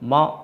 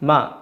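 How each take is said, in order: First: The m sound is said heavy and full. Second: The m sound is said light and thin. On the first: The speaker calls it wrong. "മ എന്ന് പറയരുത്" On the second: The speaker calls it right. "മ എന്നേ പറയാവൂ"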